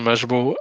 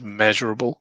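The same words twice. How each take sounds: First: The word is mumbled in a broad accent. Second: The word is clearly and carefully enunciated. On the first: The speaker calls it wrong. "I think my accent confused you" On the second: The speaker calls it right. "I have to enunciate"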